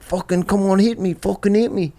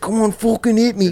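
First: A light imitation of a Liverpool accent, pitched up; Liverpool accent impression. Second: High, put-on Liverpool accent; Liverpool accent impression. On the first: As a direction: mimic his Liverpool friend daring a punch, lightly. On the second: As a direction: imitate the Liverpool friend egging him on. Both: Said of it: "I do your accent".

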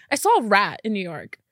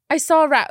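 First: Said in the usual way. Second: Louder, saw punched; excited announcement. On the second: Real, not acted. Announcing to viewers she finally saw a rat, excited. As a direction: proudly blurt it out.

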